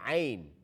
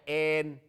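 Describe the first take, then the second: First: The vowel glides from 'a' to 'i'. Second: The vowel is a plain 'e' sound. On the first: The speaker calls it right. "अभी एन नहीं है, आइन" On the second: The speaker calls it wrong. "बास लोग कहते हैं एन। ये जो गलत आ, तरीके हैं"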